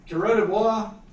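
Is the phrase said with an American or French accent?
French. The phrase is said with a French accent.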